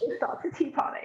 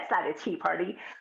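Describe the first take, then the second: First: It is said in a British accent. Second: It is said in an American accent.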